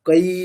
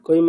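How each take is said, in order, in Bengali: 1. যুগ্মস্বরটি পূর্ণ এবং স্পষ্টভাবে উচ্চারিত। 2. যুগ্মস্বরটি ছোট এবং অস্পষ্ট। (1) "একেবারে স্পষ্ট" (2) "ছোট করে বলে দিল"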